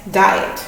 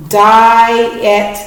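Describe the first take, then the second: First: Said in the usual way. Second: "diet" stretched as di and et; careful split read of "diet"; syllable split demo. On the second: Shown as a demonstration. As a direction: say "diet" slowly in two parts. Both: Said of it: "And the last one".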